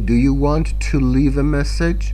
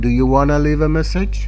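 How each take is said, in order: First: 'Want to' is said as two full words. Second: 'Want to' is reduced to one word, 'wanna'.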